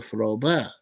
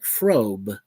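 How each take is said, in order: First: The name is said with two syllables. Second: The name is said with one syllable. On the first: The speaker calls it right. "The name also has two syllables, so Froba" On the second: The speaker calls it wrong. "Everyone mispronounces Froba's name, pronouncing it like Frobe"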